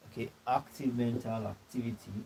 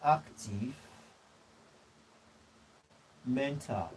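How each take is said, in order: First: Said in the usual way. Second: Each word dropped alone with long pauses; dictating slowly. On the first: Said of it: "repeats after dictation". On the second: Real, not acted. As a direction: give them time to write each word. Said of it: "dictating notes to the class".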